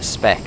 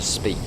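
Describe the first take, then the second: First: The vowel is short, like 'spec'. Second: The vowel is long, like 'speak'. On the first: "it sounds better spec" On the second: "instead of speak"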